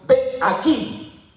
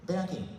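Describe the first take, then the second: First: Higher, louder, slow call; "Ven aquí" said high, loud and drawn out as a command; stern command tone. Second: "Ven aquí" said soft and level; soft flat version. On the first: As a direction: order them over firmly. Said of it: "¿Hay diferencia?... ¿Qué lo diferenció? El tono". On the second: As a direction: say it gently and plainly. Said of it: "El tono". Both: Shown as a demonstration.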